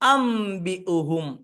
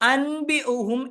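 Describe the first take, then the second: First: The nasal before b is an m sound. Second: The nasal before b is an n sound. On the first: The speaker calls it right. "അം" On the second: The speaker calls it wrong. "അൻബി ഉഹും എന്നല്ല"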